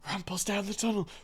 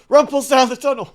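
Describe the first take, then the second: First: It is said at the quietest level. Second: It is said at the loudest level.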